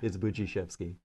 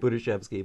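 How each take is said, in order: First: The middle consonant is a j sound. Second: The middle consonant is a plain d sound. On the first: The speaker calls it right. "but it's" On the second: The speaker calls it wrong. "You look at the D and you want to say"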